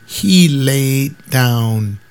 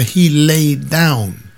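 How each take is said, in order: First: Slow "he laid down". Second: Slow "he laid down" again; "he laid down" said slowly in disbelief. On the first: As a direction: drag out "he laid down". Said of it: "I don't get the "he laid down". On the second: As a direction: drag "he laid down" out, puzzled. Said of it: "I don't get the". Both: Retold or imitated.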